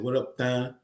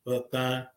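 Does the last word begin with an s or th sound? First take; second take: th; th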